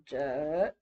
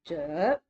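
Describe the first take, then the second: First: The pitch dips down then rises. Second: The pitch dips down then rises.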